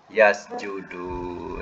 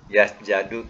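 First: The vowel after the j is 'u'. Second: The vowel after the j is 'a'. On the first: The speaker calls it right. "Yasjudu, ya?" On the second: The speaker calls it wrong. "mana yang betul?"

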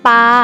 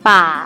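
First: The syllable is said in the saman tone. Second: The syllable is said in the ek tone. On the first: "ปออาปา" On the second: "ปาไม้เอก"

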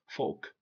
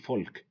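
First: The L is silent in the word. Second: The L is pronounced in the word. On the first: The speaker calls it right. "L comes after A, O, or U" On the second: The speaker calls it wrong. "Don't say folk"

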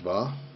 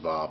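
First: The name begins with a D sound. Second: The name begins without a D sound.

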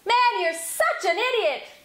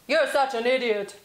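First: It is yelled at a high pitch. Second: It is yelled at a low pitch.

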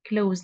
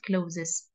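First: The word is said as one syllable. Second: The word is said as two syllables. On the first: The speaker calls it right. "say it as close" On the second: The speaker calls it wrong. "not closes"

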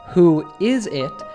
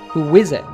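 First: The words are said without a linking W sound. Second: A W sound links 'who' and 'is'.

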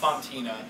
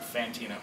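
First: The first syllable sounds like 'fon'. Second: The first syllable sounds like 'fan'. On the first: This is the character's own French pronunciation. The speaker calls it right. "she will call herself Fontina" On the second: This is how other people mispronounce the name. The speaker calls it wrong. "other people will mispronounce it Fantina"

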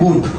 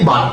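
First: The vowel is a rounded 'oo' sound. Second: The vowel is an open 'uh' sound. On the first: "এখানে আমরা কি বলতেছি? বুট" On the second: "কিন্তু আমরা সবসময় বলে থাকি বাট"

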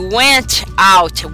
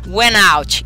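First: The T of went is fully released. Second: The T is swallowed and linked into out. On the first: The speaker calls it wrong. "em vez de falar assim, ó" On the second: The speaker calls it right. "esse forte do T que vai sumir... Vai sair assim, ó, went out, emenda no out"

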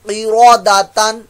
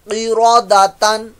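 No difference in how they are said.

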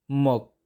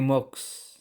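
First: The final s sound is silent. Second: A final s sound is pronounced. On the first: The speaker calls it right. "Si consonant S ay silent" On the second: The speaker calls it wrong. "hindi moks"

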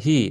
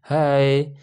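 First: The vowel sounds like 'ee', as in 'hee'. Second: The vowel sounds like 'ai', as in 'high'. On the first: The speaker calls it wrong. "Itu bukan dibaca hi" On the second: The speaker calls it right. "tetapi hi"

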